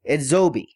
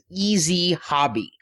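First: The name sounds like ed-zo-bee, run together. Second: The name sounds like the English words easy hobby. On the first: This is how the company itself says it. The speaker calls it right. "the guys at Yes Anime said it's pronounced Edzobi" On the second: This is the common reading based on the spelling. The speaker calls it wrong. "Everybody's pronouncing this company's name as Easy Hobby"

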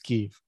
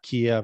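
First: The name uses the newer local pronunciation. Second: The name uses the older Americanized pronunciation. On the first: The speaker calls it right. "It's Kiev" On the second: The speaker calls it wrong. "and it's not Kiev"

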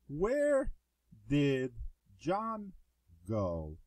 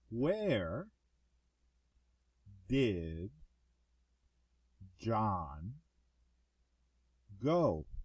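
First: The sentence is spoken a little faster. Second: The sentence is spoken very slowly. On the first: "now we're going to read it a little faster" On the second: "now we're going to read this very slowly"

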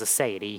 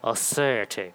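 First: It is said in a plain, ordinary voice. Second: It is said stiff-jawed like a bored Englishman. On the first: The speaker calls it wrong. "you can't just say God has aseity" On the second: The speaker calls it right. "with a stiff jaw like a bored Englishman"

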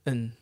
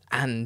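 First: The word is cut to a short n sound. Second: The word is said fully, with its vowel. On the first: It sounds like normal relaxed speech. The speaker calls it right. "instead of" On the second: It sounds overly formal or exaggerated. The speaker calls it wrong. "You sound either too pretentious or like you're exaggerating"

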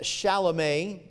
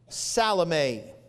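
First: The name begins with an sh sound. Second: The name begins with an s sound.

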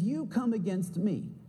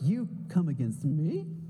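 First: It is said calmly, as a plain statement. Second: It is said with surprise, like a question.

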